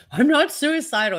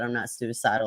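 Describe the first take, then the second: First: Mocking high whine, a touch higher; mocking Smollett. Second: Said in the usual way. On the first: Streamer mocking Smollett's jail claim, in a high mocking voice. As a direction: mimic him whining his denial. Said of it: "He said it, like, twelve times". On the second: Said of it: "He literally said".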